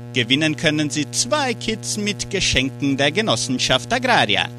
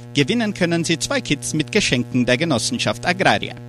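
Both takes have the same delivery.

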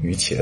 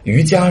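First: The second syllable is pronounced qie. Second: The second syllable is pronounced jia. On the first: This is an older reading. "之前也有人会念成瑜茄" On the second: This reading follows the Sanskrit sound. "按照梵语的发音把它念成伽"

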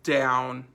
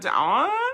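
First: The command sounds firm and serious. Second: The command sounds hesitant and unsure.

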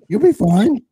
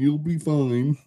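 First: It is said in a Bubbles impression voice. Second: It is said in his own normal voice.

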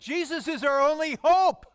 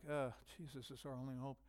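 First: It is said in a confident, emphatic tone. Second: It is said in a hesitant, deflated tone.

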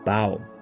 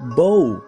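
First: The vowel sounds like the one in 'cow'. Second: The vowel sounds like the one in 'go'. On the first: It means bending the head down. "它是取的是这个鞠躬低头的这个意思，发音不一样哦" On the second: It means a curved bow, like an archer's bow. "那个却念bow，因为它是像弓一样"

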